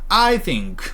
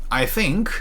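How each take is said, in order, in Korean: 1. 강세는 'I' 단어에 있습니다. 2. 강세는 'think' 단어에 있습니다. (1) "한국인들 특징이요. I think 이런 거요" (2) "이렇게 강세 위치 완전 바꿔주세요"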